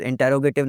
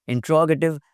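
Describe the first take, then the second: First: "इंटेरोगेटिव" as in-te-ro-GAY-tive; the wrong "इंटेरोगेटिव", with a long "gay"; mispronunciation. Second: "इंट्रोगेटिव" as in-TROG-a-tiv; correct pronunciation. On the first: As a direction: sound every syllable of "इंटेरोगेटिव", wrongly. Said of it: "लफ्ज़ इंटेरोगेटिव नहीं बोलना". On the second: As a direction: say "इंट्रोगेटिव" with stress on "tro". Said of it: "इंट्रोगेटिव लफ्ज़ है". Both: Shown as a demonstration.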